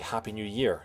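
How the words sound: The word Year carries the stress. This is how British people tend to say it. "we put the emphasis on the third word"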